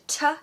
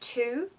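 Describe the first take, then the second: First: The vowel is a reduced schwa sound. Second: The vowel is a full vowel sound. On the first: "I've used one in two, so I've said t" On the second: "instead of two"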